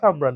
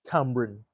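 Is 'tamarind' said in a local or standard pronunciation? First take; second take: local; standard. First: It is said in a casual local island pronunciation. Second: It is said in a careful standard pronunciation. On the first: This is how it is said at home among locals. "But in local, myself and my mom speaking, it's like" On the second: This is the proper form of the word. "That's how we properly say it"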